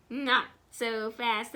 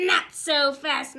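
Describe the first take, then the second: First: Said in the usual way. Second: Louder stern stop order; strict coach catching a sneak; stern command. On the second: Acted. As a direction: halt the runaway player. Coach Swamp stops the fullback.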